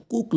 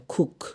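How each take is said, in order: First: কুক with a hard K, no puff; plain kook, no breath on first K; unaspirated K. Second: খুক with a puff of air, khook; aspirated K. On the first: Teacher shows a wrong cook, unaspirated K. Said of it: "উচ্চারণ কুক না". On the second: Teacher gives the correct cook, aspirated K. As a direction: breathe out on the first K of খুক. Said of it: "সির উচ্চারণ খ হবে". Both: Shown as a demonstration.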